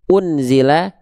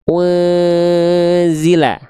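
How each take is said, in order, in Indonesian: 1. Bunyi n dilafalkan dengan jelas dan tegas. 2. Bunyi n samar dan sengau, ditahan lebih lama. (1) "Bunyi n-nya nggak lagi kita baca jelas... Bukan dibaca unzila" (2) "dia dibaca bunyi n-nya samar, bunyi n-nya dengungkan"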